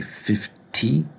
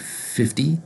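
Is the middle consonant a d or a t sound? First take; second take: t; d. First: The middle consonant is a crisp t sound. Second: The middle consonant is a soft d sound. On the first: The speaker calls it wrong. "we don't say fifty" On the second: The speaker calls it right. "we say fifty in American English"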